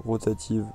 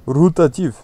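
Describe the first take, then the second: First: Said in the usual way. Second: Louder, higher mock Russian accent. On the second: Player playfully repeats the wheel type to viewers, Russian accent. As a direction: punch the word out in a put-on Russian accent. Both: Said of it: "je sais pas pourquoi j'ai pris l'accent russe".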